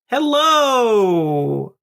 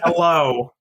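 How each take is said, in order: First: It is said in an upbeat, lively way. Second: It is said in a flat, low-energy way.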